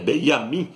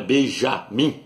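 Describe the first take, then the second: First: The middle consonant is a Y sound. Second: The middle consonant is a soft J sound. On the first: The speaker calls it right. "é Benjamim" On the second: The speaker calls it wrong. "não é Benjamim, porque no hebraico não tem a letra J"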